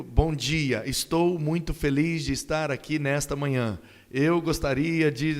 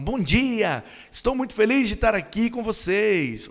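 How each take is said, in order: First: Dry recital of a written speech; formal greeting without any emotion; emotionless speech reading. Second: High, joyful speech opening; bright-spirited, raised-pitch enthusiasm; happy, emotional greeting. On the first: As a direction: read it out stiffly, no feeling. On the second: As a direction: welcome the audience with real delight. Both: Shown as a demonstration. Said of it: "você não passa a emoção".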